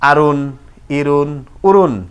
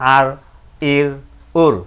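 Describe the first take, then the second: First: Each syllable ends with a full -un ending. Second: Each syllable ends on a bare consonant. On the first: The reader continues without stopping. "না থামিলে যেমন আছে তেমন করে পড়তে হয়" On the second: The reader stops here. "দুই পেশে থামিলে সাকিন ধরে পড়তে হয়"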